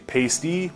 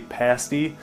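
First: Pasty is said the way outsiders say it. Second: Pasty is said the way locals say it. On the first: This is how the other group says it. "They say pasty" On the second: This is how the speaker's own group says it. "we say pasty"

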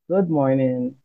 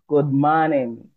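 First: It is said in a standard English accent. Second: It is said in a Caribbean Creole accent. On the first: "instead of good morning" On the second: "I would say good morning"

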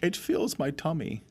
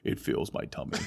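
First: It is said in a Winnie the Pooh voice. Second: It is said in a deeper Bane voice.

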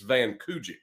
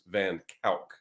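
First: The name is read as English spelling suggests. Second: The name is said with Dutch pronunciation. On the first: The speaker calls it wrong. "it looks like it's Van Kujik is how I would pronounce it" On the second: The speaker calls it right. "it's actually pronounced in the Netherlands, in Holland, it is pronounced Van Kalk"

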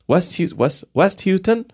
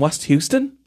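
First: The name is pronounced without the Houston sound. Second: The name is pronounced like the city Houston.

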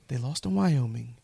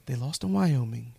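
First: The voice sounds calm and controlled. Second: The same.

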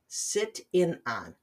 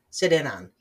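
First: The words are said slowly and kept separate. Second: The words are said fast and run together. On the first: "Let me try this slowly" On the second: "Try saying that fast. ... as quickly as I just did"

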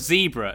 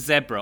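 First: It is said in an American pronunciation. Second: It is said in a non-American pronunciation.

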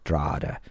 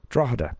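First: It is said the way locals say it. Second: It is said the way outsiders say it.

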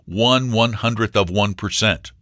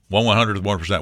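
First: The phrase is said at a normal, clear pace. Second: The phrase is said very fast and garbled.

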